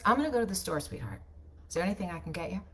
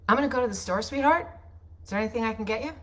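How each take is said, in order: First: Said in the usual way. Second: Sweetheart lifted up high at the end; upspeak. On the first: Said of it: "So see the difference?". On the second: Shown as a demonstration. Wife to her husband, casual read with upspeak. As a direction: let "sweetheart" rise up like a question. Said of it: "here's how I might add upspeak".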